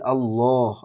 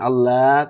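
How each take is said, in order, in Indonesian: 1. Bunyi L itu berat dan tebal. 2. Bunyi L itu ringan dan tipis. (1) "tapi Allah, Allah tebal" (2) "jangan tipis, jangan Allah"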